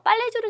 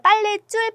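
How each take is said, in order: First: The consonant starting 줄 is plain. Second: The consonant starting 줄 is tense. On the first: The speaker calls it wrong. "빨래줄은 좀 어색해요" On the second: The speaker calls it right. "지금 된소리가 나고 있어요"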